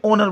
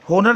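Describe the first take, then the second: First: The word begins with a vowel sound. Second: The word begins with an h sound. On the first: The speaker calls it right. "ओनर बोलते हैं। ए silent है" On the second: The speaker calls it wrong. "होनर नहीं बोलते"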